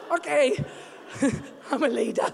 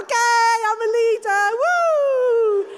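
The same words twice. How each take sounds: First: Mock-pitiful giving in with a little laugh; hammed-up small, defeated voice; meek, tearful compliance. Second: Loud, high triumphant whoop; acted exuberant comeback; flying again. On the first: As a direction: act sniffly and reluctant to agree. Retold tearful giving in to husband. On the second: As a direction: burst out revived, rising into a whoop. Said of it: "I start flying again".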